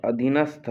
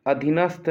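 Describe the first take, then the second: First: "अधीनस्थ" ending in an aspirated stha; correct form shown. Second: "अधीनस्थ" with the end clipped to st; wrong form shown. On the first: Teacher correcting students' word, अधीनस्थ with aspirated ending. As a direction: sound the final था in "अधीनस्थ". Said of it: "होता है". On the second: Teacher showing the mistake to avoid, अधीनस्थ with swallowed ending. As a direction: close "अधीनस्थ" without sounding the final tha. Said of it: "नहीं होता". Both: Shown as a demonstration.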